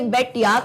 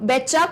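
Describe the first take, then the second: First: The second word is reduced to 'ya'. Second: The words blend into one, ending in 'cha'. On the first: "बेट यू की जगह या होता है" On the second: "या बोलते बोलते ये चा कर देते हैं"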